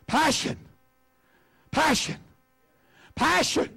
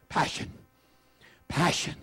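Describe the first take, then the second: First: "Passion" called out much higher each time; "Passion" lifted high and rung out to the room; ringing call. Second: "Passion" said softly and low, dropped down; "Passion" breathed out quietly with reverence; soft hushed word. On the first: Preacher calling "Passion" out high to the congregation. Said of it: "Everybody say passion". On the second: Preacher softly modelling "Passion" for the church. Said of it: "say that word with me". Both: Shown as a demonstration.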